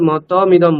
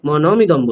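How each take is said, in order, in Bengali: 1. দ্বিতীয় ব্যঞ্জনটি t ধ্বনি। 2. দ্বিতীয় ব্যঞ্জনটি n ধ্বনি। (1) "প্রত্যেকবার মতমিদম বলছি" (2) "আপনি মনমিদম বলছেন"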